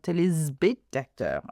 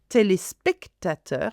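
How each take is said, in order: First: The middle s is a buzzed z sound. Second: The middle s is a hissed s sound. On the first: The speaker calls it wrong. "and not" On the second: The speaker calls it right. "the S is followed by a consonant"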